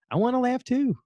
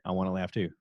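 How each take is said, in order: First: Very high, squeaky playful plea; playful whine. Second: Said in the usual way. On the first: Pretend. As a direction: repeat it like an eager kid left out.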